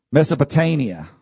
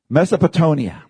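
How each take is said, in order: First: Mesopotamia said as "Mesopo-TAIN-ia"; pronounced with TAIN. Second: Mesopotamia said as "Mesopo-TONE-ia"; pronounced with TONE. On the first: Preacher correcting himself before the congregation, pronounced with TAIN. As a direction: say Mesopotamia with a long A in the stressed syllable. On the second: Preacher trying a hard place name on the congregation, pronounced with TONE. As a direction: say Mesopotamia with a long O in the stressed syllable. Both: Shown as a demonstration. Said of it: "Did I say that right?".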